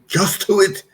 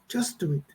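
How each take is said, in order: First: It sounds like a stern command. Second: It sounds like friendly encouragement.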